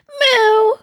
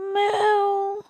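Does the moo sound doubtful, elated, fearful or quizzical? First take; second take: elated; quizzical. First: The moo sounds elated. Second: The moo sounds quizzical.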